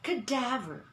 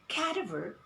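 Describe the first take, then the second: First: The stress is on the second syllable. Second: The stress is not on the second syllable. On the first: The speaker calls it right. "the accent of the word is on the second syllable" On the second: The speaker calls it wrong. "We do not say cadaver"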